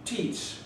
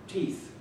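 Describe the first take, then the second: First: "teats" said for teeth, a long tee vowel ending in ts; Yat teeth. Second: Said in the usual way. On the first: Shown as a demonstration. Showing the crowd how locals say teeth, as "teats".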